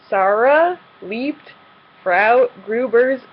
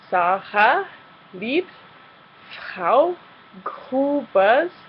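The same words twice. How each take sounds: First: The R sounds are hard American-style R sounds. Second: The R sounds are soft and breathy like H. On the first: The speaker calls it wrong. "like a typical American English native speaking German learner would" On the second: The speaker calls it right. "replacing the R's that we see with an H sound"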